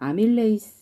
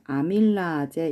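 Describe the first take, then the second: First: The word ends with a 'lei-seu' sound. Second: The word ends with a 'la-je' sound. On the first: This is the form used in the current textbook. "지금은 아밀레이스 이렇게 나오는데" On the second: This is another common way people say it. "아밀라제 이렇게 발음하기도 하거든요"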